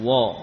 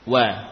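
First: The syllable wa is pronounced thick and heavy. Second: The syllable wa is pronounced thin and light. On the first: The speaker calls it wrong. "bukan wa" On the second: The speaker calls it right. "Huruf wawu juga termasuk huruf istifal tipis"

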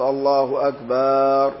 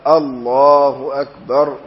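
First: The vowel after the b is drawn out. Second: The vowel after the b is short. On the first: It changes the meaning into a vile one. The speaker calls it wrong. "لا تمد ما بعد الباء فلا تقول" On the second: It states that God is greater. The speaker calls it right. "من غير مد هكذا"

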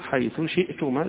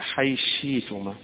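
First: Th is pronounced and the glottal stop is kept. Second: Th merges into sh; the glottal stop becomes y. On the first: "يظهر حيث شئتما" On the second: "الإدغام مع الإبدال"

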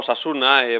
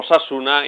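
First: The stress is on the penultimate syllable. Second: The stress is on the second syllable. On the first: The speaker calls it wrong. "y no" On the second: The speaker calls it right. "Cuando hay cuatro sílabas siempre hay que hacer así"

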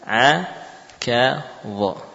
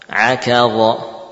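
First: Each letter is said separately with pauses between. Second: The letters are said quickly, joined without pauses. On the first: "harfan ba'da harfin" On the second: "dibaca dengan lebih cepat, yakni langsung bersambung"

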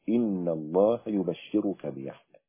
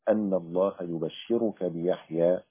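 First: The first word begins with an 'i' vowel. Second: The first word begins with an 'a' vowel. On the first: The angels called out, saying the words directly. "بكسر الهمزة أو بكسر همزة إن" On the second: The angels informed him of the good news. "بفتح همزة أن"

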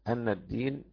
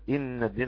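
First: The first word begins with an 'a' vowel. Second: The first word begins with an 'i' vowel. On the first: It continues the previous sentence. "الكسائي يفتح الهمزة" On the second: It can begin a new sentence. "ولكن الباقي يكسر"

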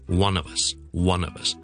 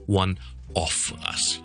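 First: The word 'of' is reduced and quick. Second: The word 'of' is full and strong. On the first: The speaker calls it right. "那我们就说呢" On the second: The speaker calls it wrong. "就不会读成是"

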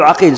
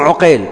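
First: The name begins with an a sound. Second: The name begins with a u sound. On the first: This is the well-known form people say by mistake. The speaker calls it wrong. "كل واحد يخطي يقول عقيل" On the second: This is the name of the narrator from al-Zuhri. The speaker calls it right. "اللي يروي عن الزهري اسمه عقيل ابن خالد"

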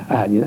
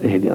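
First: The word begins with an 'a' vowel. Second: The word begins with an 'i' vowel. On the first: The speaker calls it wrong. "فتح الهمزة" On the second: The speaker calls it right. "بكسر الهمزة"

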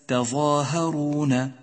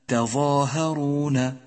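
Both takes have the same delivery.

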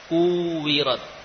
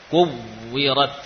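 First: The w blends into a long u vowel. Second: The w is doubled with firm lip pressure. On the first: The speaker calls it wrong. "ini kalau tasydidnya tidak jelas, maka yang terdengar apa? Wawu mad" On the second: The speaker calls it right. "Bibir betul-betul ada tekanan"

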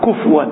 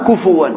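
First: The f has no vowel after it. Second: A w sound follows the f and its vowel. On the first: The speaker calls it wrong. "بعض الناس يقرأ كفوا بالسكون، هذا خطأ" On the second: The speaker calls it right. "إذا بدون همس كفوا قراءة"

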